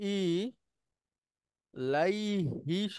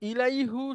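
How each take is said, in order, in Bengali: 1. শব্দটি স্বরবর্ণ ই দিয়ে শেষ হয়েছে। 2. শব্দটি স্বরবর্ণ উ দিয়ে শেষ হয়েছে। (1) "তখন হয়ে যায় ইলাইহি" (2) "তাহলে ইলাইহুটা তখন আর ব্যবহার হয় না"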